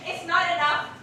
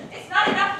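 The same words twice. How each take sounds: First: Angry protest. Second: The same phrase pushed louder and higher; angrier louder repeat. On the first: Helena's rising anger, repeated phrase. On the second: Helena rebuking Lysander for mocking her, angrier repeat. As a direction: hit it harder the second time. Helena's anger builds on repetition. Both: Acted.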